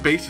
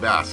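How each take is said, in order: First: The name does not sound like the fish. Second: The name sounds like the fish word. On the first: "how you're supposed to say it" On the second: "that sounds like a fish"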